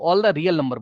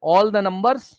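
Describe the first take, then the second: First: All the real number, slowly, with real leaned on; slow down and land on the word real; stress on real. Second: Said in the usual way. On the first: Shown as a demonstration. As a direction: insist on real number, not just number. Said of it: "all the real number बोलो". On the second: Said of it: "number नहीं बोलो".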